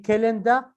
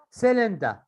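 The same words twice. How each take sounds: First: Cylinder with a hard k at the start; learner's mistake, k for s in cylinder; mispronounced cylinder. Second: Said in the usual way. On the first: Shown as a demonstration. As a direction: say cylinder as "kilinder". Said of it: "This is wrong". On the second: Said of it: "you say cylinder".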